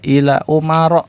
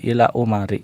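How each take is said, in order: First: The last word ends with an 'a' vowel. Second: The last word ends with an 'i' vowel. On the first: The speaker calls it right. "maka kita baca ila umaro" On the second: The speaker calls it wrong. "bukan ila umari"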